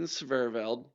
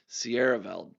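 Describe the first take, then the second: First: An extra V sound follows the first S. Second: No extra V sound follows the first S. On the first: The speaker calls it wrong. "I always say Sverveld. I put an extra V in there" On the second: The speaker calls it right. "as I believe is the proper pronunciation"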